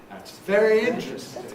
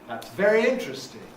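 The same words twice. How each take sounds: Both takes have the same delivery.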